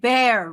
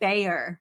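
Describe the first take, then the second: First: It is said like bear, without a y sound. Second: It is said with a y sound in the middle. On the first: "You're saying bear" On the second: "I'm saying Bayer with a Y"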